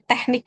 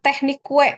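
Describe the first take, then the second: First: The word ends plainly without a 'kyu' sound. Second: The word ends with an extra 'kyu' sound. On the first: The speaker calls it right. "tapi teknik aja dibacanya ya" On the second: The speaker calls it wrong. "bukan teknik kue ya"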